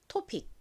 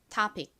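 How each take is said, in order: First: The first vowel sounds like a rounded o. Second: The first vowel sounds close to an open ah. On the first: "한국식으로 O 소리로 읽는 O" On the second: "원어 발음으로는 O를 아 소리에 가깝게 읽어서"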